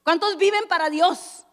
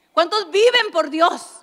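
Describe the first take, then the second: First: Said in the usual way. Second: Slow, louder ¿Cuántos viven por Dios?, viven leaned on; preacher's punch on viven; stress on viven. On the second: Shown as a demonstration. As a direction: draw out viven and press it. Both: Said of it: "vivir por Dios".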